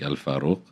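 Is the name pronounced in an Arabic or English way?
Arabic. The name is said in an Arabic way. This is the original, proper form. "its proper pronunciation would be more like"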